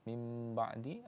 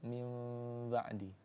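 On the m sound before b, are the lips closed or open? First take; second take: closed; open. First: The lips close fully on the m sound. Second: The lips stay slightly open on the m sound.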